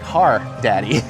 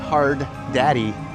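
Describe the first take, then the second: First: The first word has no final d sound. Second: The first word ends with a d sound. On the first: The speaker calls it right. "It's like Har Daddy" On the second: The speaker calls it wrong. "I thought it was Hard Daddy. It's not"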